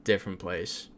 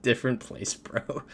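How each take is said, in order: First: Short, unimpressed retold reply; a curt brush-off, retold at usual pitch. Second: Higher retold brush-off after a laugh; mock-curt dismissal with amusement; curt, amused retelling. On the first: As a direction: shut the small talk down curtly. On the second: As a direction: replay your curt reply, tickled by it. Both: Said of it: "just very curt with my response".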